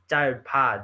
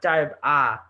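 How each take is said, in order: First: The p sound carries over into the second syllable. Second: The second syllable starts with a bare vowel. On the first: The speaker calls it right. "The p transfers over here" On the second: The speaker calls it wrong. "It's not type ah"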